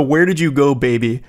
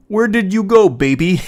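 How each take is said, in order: First: Said in the usual way. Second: High, loud mock-sweet coo; sing-song fake tenderness; mock lovey-dovey boyfriend. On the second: Reading boyfriend's text in mock voice.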